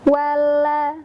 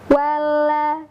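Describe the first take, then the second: Both takes have the same delivery.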